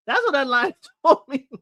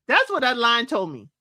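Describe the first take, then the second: First: Laughter breaking into the words; laughing. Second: Said in the usual way. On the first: Real, not acted. Repeating the joke to viewers, laughing through it. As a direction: say it while cracking up.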